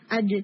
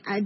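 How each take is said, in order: First: اج struck once and released with a short bounce; clean echoing jeem. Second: اج dragged out into a hissing 'shhh'; wrong اج, friction running on after the hit; running sound. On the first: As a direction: stop اج dead, no hissing tail. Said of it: "یہ نہیں ہونی چاہیے". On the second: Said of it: "running سے مراد یہ ہوگا کہ آپ اس کو ایسے بولیں". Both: Shown as a demonstration.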